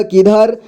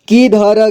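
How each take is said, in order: First: Said in the usual way. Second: किधर as कि-ध-र; syllable by syllable. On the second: Shown as a demonstration. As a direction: sound out किधर ending "ra". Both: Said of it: "एक ही बार में पढ़ेंगे".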